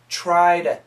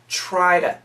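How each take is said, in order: First: Said fast with the t turned into d. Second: The same.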